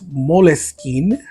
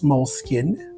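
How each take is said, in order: First: The name is pronounced in a French way. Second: The name is pronounced in a non-French way. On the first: This is how the company pronounces it now. "the company moved to France, so now it's Moleskine" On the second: This is the name's original pronunciation. "It is Moleskine"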